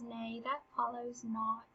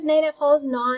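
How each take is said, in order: First: Soft and slow, knowing; quiet retort. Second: Louder, pointed correction; loud retort. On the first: Hamlet to Polonius, correcting him: soft, slow and knowing. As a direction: say it softly and slowly, as if to himself. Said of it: "Because Hamlet knows the story of Jephthah". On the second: Hamlet to Polonius, repeating the line: louder and pointed. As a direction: push it at him louder and firmly. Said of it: "he also knows that Polonius is using Ophelia". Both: Acted.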